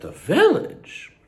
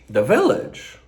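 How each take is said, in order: First: High, slow, dramatic "The village?" questioning squeal; Drag Race meme. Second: Drag Race meme. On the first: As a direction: stretch it out high and incredulous. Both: Retold or imitated. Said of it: "That's a Drag Race meme".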